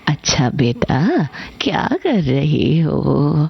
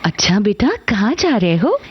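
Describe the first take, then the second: First: It is said in an old grandmother's voice. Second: It is said in a mother's voice.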